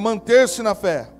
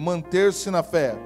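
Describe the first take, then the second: First: It is said louder and stronger. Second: It is said at normal loudness.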